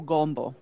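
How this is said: It is said with strongly rounded South Louisiana vowels.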